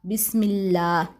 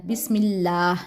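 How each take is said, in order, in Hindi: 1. आखिरी स्वर लंबा खींचकर बोला जाता है। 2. आखिरी स्वर लंबा खींचकर बोला जाता है।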